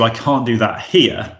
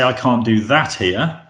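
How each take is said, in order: First: The stress is on here. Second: The stress is on that.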